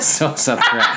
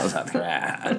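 First: A hint of a Valley Girl, laughing. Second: Low creaky vocal fry, laughing. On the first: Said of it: "You sounded like a Valley Girl". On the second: Retold or imitated. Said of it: "Vocal fry".

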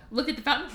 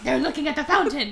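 First: Said in the usual way. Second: Louder, mock-outraged jealous echo; jealous Fifi. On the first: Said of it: "And he's like". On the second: Fifi overhearing the date story, mock-jealous outburst. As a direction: repeat it like a scandalised girlfriend. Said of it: "and Fifi's like".

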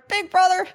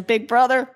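First: Much higher, gleeful squeal of the title; Big Brother sung out high with delight; gleeful repeat. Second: Said in the usual way. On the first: Real, not acted. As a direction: fan gushing over a guilty pleasure show, high and gleeful. Gleeful repeat of favourite show.

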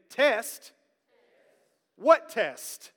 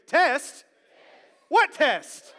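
First: Said in the usual way. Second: Higher, louder questioning "What test?"; asking a question. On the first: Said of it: "I'll get you to repeat it first". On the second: Shown as a demonstration. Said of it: "as if you're asking me the question".

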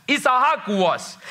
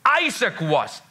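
First: "Isaac" said slowly as Hebrew Yitzhak; "Isaac" in slow Hebrew form; Hebrew pronunciation. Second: Said in the usual way. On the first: Shown as a demonstration. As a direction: give "Isaac" its Hebrew sound, ee-tsa-HAK, drawn out. Name repeated in Hebrew form.

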